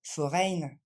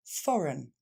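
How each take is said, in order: First: Foreign avec la fin -eign appuyée; mauvaise prononciation. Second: Foreign fini en -un, fo-run; bonne prononciation. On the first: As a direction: imiter la faute sur foreign. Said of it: "on ne va pas dire foreign". (foreign mal prononcé) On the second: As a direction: dire foreign avec un simple son un. (foreign bien prononcé) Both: Shown as a demonstration.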